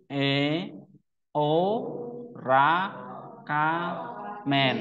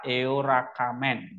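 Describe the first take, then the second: First: Each syllable said apart with pauses. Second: Eorakamen run together as a single joined word; read as one word. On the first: Teacher showing students how to read Greek syllables, spaced out. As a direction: break E, o, ra, ka, men into separate beats. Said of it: "Nah, gitu cara bacanya". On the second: Teacher showing students the fast reading, syllables joined. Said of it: "Jadi kalau dibaca cepat". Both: Shown as a demonstration.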